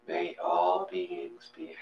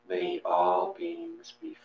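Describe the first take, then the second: No difference in how they are said.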